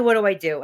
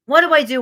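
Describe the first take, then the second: First: Said in the usual way. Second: Higher, louder mock panic; panicked plea. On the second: Coach acting out a client's panic, higher and louder. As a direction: throw up your hands in mock panic. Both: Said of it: "She was so frustrated".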